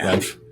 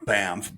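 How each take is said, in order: First: It is said with an n sound before ff. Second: It is said with an m sound before ff. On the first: This matches how the name is spelled. "even though it's" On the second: This is how the locals say it. "B A M F F is how they pronounce it"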